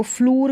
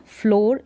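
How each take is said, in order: First: फ्लूर said as "floor" with an oo as in boot; wrong "oo" vowel. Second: फ्लोर said with a long o, "flor"; correct "o" vowel. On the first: Teacher warning pupils against book-style double o, फ्लूर with oo. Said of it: "फ्लूर करके नहीं पढ़ेंगे". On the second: Teacher correcting the misreading for pupils, फ्लोर with long o. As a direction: give फ्लोर its o sound, never oo. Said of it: "फ्लोर इसका उच्चारण". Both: Shown as a demonstration.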